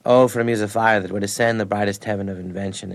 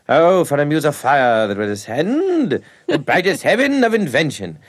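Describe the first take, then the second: First: Said in the usual way. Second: Slow, grand, higher recitation with a laugh breaking in; hammy Shakespeare professor. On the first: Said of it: "he'd always go, he'd say". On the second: Retold or imitated. Professor reciting Henry the Fifth in a hammy declaiming voice. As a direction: declaim it like a pompous old actor. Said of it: "Like that".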